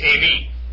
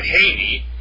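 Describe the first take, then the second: First: The word begins with a bare vowel. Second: The word begins with an h sound. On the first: The speaker calls it right. "It's soft breathing" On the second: The speaker calls it wrong. "It's not hard breathing"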